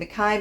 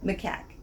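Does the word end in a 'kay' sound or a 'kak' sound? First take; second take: kay; kak. First: The word ends in an open 'kay' sound. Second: The word ends in a closed 'kak' sound. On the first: The speaker calls it wrong. "I kept saying Mackay" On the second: The speaker calls it right. "Macaque. I think it is"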